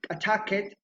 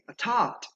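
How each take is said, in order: First: The ending is said as an extra syllable. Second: The ending is a single sound, no extra syllable. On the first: The speaker calls it wrong. "That is incorrect" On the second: The speaker calls it right. "you have to say attacked"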